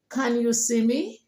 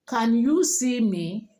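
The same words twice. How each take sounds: First: It is said with a native English accent. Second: It is said with a Nigerian English accent. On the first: "you want to sound like the native speaker. It goes" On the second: "as a typical Nigerian, you will say"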